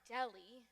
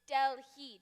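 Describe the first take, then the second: First: The H sound is left out entirely. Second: The H sound is clearly pronounced. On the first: The speaker calls it wrong. "not Delhi" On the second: The speaker calls it right. "you're not sounding the H"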